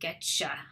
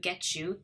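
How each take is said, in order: First: The words merge into one reduced form. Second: Both words are said in full.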